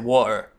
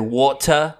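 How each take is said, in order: First: The middle T is dropped. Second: The middle T is clearly pronounced. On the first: "or you don't. You totally ignore them" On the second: "You guys either really pronounce the T's"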